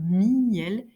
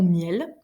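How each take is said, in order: First: The word is split into two syllables. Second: The word is said as one syllable. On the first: "je peux exagérer la distinction" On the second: "notre façon habituelle de prononcer lion et miel"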